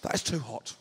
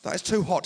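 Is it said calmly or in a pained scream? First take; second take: calmly; pained scream. First: It is said fairly calmly, mildly uncomfortable. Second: It is said as a loud, pained scream.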